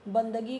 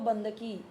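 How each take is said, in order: First: The last consonant is a voiced g sound. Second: The last consonant is a voiceless k sound. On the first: This is the standard Hindi form. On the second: This is the Chhattisgarhi form.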